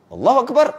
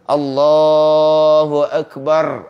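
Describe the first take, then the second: First: It is said short and quick. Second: It is said long and drawn out.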